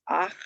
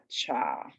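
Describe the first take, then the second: First: "ach" with the vowel before the guttural ch; correct sound order. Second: "cha" with the consonant before the vowel; reversed sound order. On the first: Teacher reading final chet, "ach" with vowel first. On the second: Teacher showing the mistake to avoid, "cha" consonant first. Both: Shown as a demonstration. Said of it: "and not cha".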